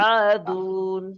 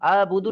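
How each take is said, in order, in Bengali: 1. মাঝখানে কোনো b ধ্বনি নেই। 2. মাঝখানে একটি b ধ্বনি যোগ হয়।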